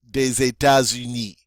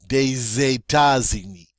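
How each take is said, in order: Both takes have the same delivery.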